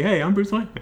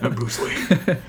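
First: It is said in a normal, casual voice. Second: It is said in a gruff Batman voice.

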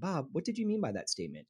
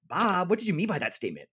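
First: It is said in a neutral, asking tone. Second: It is said in an accusatory tone.

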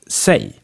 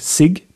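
First: The word ends with a vowel, no g sound. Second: The word ends with a hard g sound. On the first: The speaker calls it right. "but sig" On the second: The speaker calls it wrong. "not pronounced like sig"

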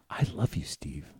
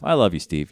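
First: It is said with intense, heartfelt feeling. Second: It is said casually, without much feeling.

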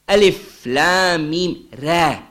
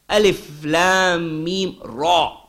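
First: The ra is said light, with a thin mouth. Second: The ra is said heavy, with a full mouth. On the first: "Tarqiq, light mouth" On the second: "With tafkhim, with heavy mouth"

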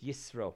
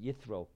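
First: The middle consonant is an s sound. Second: The middle consonant is a th sound. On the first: This is the Hebrew way of saying the name. "In the Hebrew, it's Yisro, as the S sound" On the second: This is the English way of saying the name. "In English, they pronounce it Yithro"

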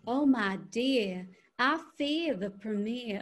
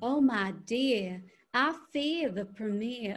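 First: Southern drawl with soft, subtle R sounds. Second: Southern drawl with soft, subtle R sounds.

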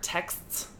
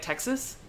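First: The word ends in a tight cluster without extra vowel. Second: An extra vowel is inserted, sounding like Texas. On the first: "they text me or texts" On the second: "They say, like, Texas"

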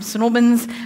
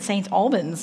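First: The name is run together into two syllables. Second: The name is said in full, word by word. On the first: The speaker calls it right. "Snorbins, I got to say it like that" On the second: The speaker calls it wrong. "I'm so happy to be here at St. Albans"

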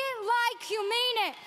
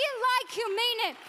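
Both takes have the same delivery.

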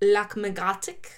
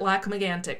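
First: The name is said with a French pronunciation. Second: The name is said with an English pronunciation. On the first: "the French pronunciation is like" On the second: "Anglo-Canadians, from what I can tell, Erica pronounces it"

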